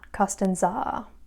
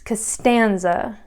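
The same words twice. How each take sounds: First: The stress is not on the second syllable. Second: The stress is on the second syllable. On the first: The speaker calls it wrong. "It's not Costanza" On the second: The speaker calls it right. "the second syllable is the one that has the natural accent"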